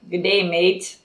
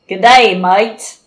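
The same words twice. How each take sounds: First: It is said without an Australian accent. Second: It is said with an Australian accent.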